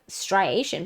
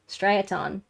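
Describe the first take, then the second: First: The word ends with a 'shun' sound. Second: The word ends with a 'tun' sound. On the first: The speaker calls it wrong. "I've always thought it was T I O N, like striation, but it is not" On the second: The speaker calls it right. "It is, I think, like striaton"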